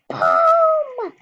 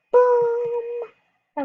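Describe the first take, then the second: First: Very high loud shouted boom. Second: High loud boom, a bit less. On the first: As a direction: belt out the impact. Jumping off the high dive. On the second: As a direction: shout the impact. Jumping off the mini board. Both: Pretend.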